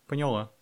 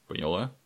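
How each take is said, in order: First: Higher-pitched «поняла» with falling tune; lightly voiced woman, higher and brief; woman confirming. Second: «поняла» with a rising question tune; «поняла» as a brief rising question; checking question. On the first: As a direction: answer an order with a firm, falling «поняла». Woman answers the order. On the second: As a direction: ask «поняла» as a check, pitch going up. Soldier checks that order is understood. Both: A narrator's reading.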